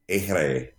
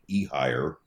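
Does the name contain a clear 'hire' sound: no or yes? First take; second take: no; yes. First: It is said as a short 'air-ay' sound. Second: It is said like 'ee' plus 'hire'. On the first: The speaker calls it right. "It's supposed to sound like Ehre" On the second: The speaker calls it wrong. "It looks like it would be E-Hire"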